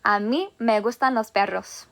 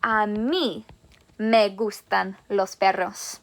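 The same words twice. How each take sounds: First: "mí" stressed in "A mí me gustan los perros". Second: "A mí" stressed, then "me gustan los perros" slow and lower; emphasis on A MÍ. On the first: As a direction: hit "mí" clearly. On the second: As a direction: lean on "A mí" to show it's you. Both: Shown as a demonstration. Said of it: "make it a little more emphasized by saying".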